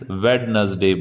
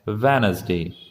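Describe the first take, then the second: First: A d sound is pronounced in the middle. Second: The d sound in the middle is silent. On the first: The speaker calls it wrong. "काफी students वेडनसडे बोलते हैं" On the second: The speaker calls it right. "इसमें डी silent होता है"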